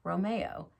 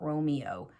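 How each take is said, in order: First: The name is said with an Italian pronunciation. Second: The name is said with an English pronunciation. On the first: The speaker calls it right. "the Italian pronunciation of the Italian-based name" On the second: The speaker calls it wrong. "Romeo is the English pronunciation"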